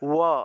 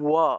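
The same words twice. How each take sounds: Both takes have the same delivery.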